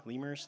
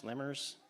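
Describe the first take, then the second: First: "Lemurs" said as LEE-murs, long ee; "Lemurs" with a long ee in the first syllable; "Lemurs" tried with a long LEE sound; first try at lemurs. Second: "Lemurs" said as LEH-murs, short e; "Lemurs" with a short eh in the first syllable; "Lemurs" retried with a short LEH sound; corrected lemurs. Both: Shown as a demonstration. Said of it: "Did I say it wrong?".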